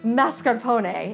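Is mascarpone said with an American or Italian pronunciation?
Italian. The word has an Italian-style pronunciation. This is the authentic way the word is said. "It's really mascarpone if I was Giada De Laurentiis"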